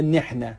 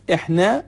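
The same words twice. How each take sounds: First: «نحن» slowly as nehna, with initial n; گونهٔ دیگر عراقی. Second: «احنا» slowly as ehna, starting on the vowel; تلفظ عراقی «ما». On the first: («نحن» شمرده، به صورت نِحنا) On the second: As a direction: say «احنا» with no initial n. («احنا» شمرده، بدون نون اول) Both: Shown as a demonstration.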